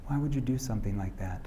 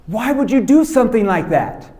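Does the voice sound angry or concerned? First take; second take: concerned; angry. First: The voice sounds concerned and caring. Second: The voice sounds upset and angry. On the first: The parent is disappointed but still loving. The speaker calls it right. "That I'm concerned. I'm disappointed, but I love you" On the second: The parent is upset and blaming them. The speaker calls it wrong. "you're all upset and you're like this"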